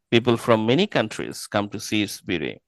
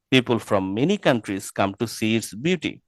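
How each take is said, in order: The two takes are said the same way.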